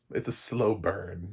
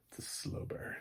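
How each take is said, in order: First: Said in the usual way. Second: Hushed complimentary. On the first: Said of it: "that's how we say it". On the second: Shown as a demonstration. Reviewer showing how to say it as praise, hushed. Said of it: "how we say it complimentary".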